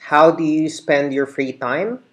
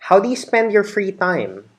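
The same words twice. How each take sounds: First: It is said at a slower pace. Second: It is said at a faster pace.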